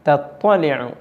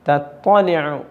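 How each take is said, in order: No difference in how they are said.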